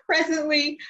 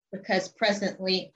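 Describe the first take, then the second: First: High, choked on the edge of tears; tearful voice. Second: Said in the usual way. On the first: Real, not acted. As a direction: say it through a breaking voice. Repeated right after tearful laugh.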